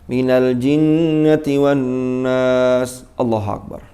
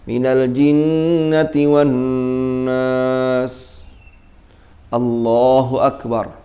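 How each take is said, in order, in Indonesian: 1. Akhir ayat langsung disambung ke takbir. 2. Ada jeda yang memisahkan akhir ayat dari takbir. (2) "Kalau begitu"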